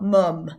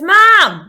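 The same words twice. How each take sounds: First: Northern English accent. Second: Put-on "mam" yelled high in West Country accent; Southwest English accent. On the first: Shown as a demonstration. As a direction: say "mum" as in the North of England. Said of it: "like we would say in the North". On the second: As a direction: imitate a Southwest kid shouting "mam". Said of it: "not mum, like we would say in the North".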